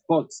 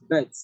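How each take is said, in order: First: The word has a rounded, back vowel. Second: The word has an open, central vowel. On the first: The speaker calls it wrong. "do not pronounce B U T as but" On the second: The speaker calls it right. "No, it's bet"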